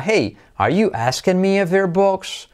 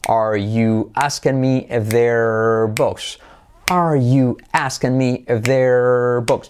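First: "Hey, are you asking me if they're books?" pitched high as a question; high, measured query on "Hey, are you asking me if they're books?"; question intonation. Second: Slow, evenly beaten English phrase; stretched words linked in steady rhythm; rhythmic drill. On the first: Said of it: "entonación sería, como es pregunta". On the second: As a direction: chant it slowly to a teaching beat. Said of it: "la hacemos con ritmo". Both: Shown as a demonstration.

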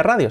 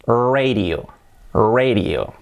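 First: "radio" with Spanish RA; Spanish-style RA-dyo; Spanish pronunciation. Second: "radio" said as REY-rio; English-style RAY-dee-o; English pronunciation. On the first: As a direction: say radio as RA-dio. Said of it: "no se pronuncia radio". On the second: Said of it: "se pronuncia". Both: Shown as a demonstration.

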